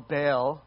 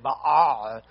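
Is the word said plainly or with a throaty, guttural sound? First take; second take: plain; guttural. First: The word is said plainly, without throat sounds. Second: The word is said with a throaty, choking-like sound. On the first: "Baal or Baal" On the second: "if we're fancy, we can say Baal"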